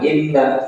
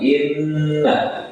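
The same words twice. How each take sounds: First: The n sound is short, not held. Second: The n sound is held for two beats. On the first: The speaker calls it wrong. "jangan inna" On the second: The speaker calls it right. "tapi inna ... ditahan dua rokat"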